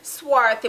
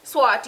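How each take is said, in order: First: The middle sound is a 'th' sound. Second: The middle sound is a plain 't' sound.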